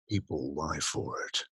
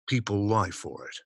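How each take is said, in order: First: It is read at a slower, measured pace. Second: It is read fast and punchy.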